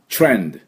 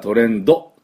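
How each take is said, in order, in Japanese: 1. 最後のdは母音なしで止まります。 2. 最後のdのあとに母音が続きます。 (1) "トレンドというふうに発音します。チュッチュッと最後、ドゥッて止まる" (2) "D はトレンドっていうふうに言っちゃいけない。ドをつけてはいけないから"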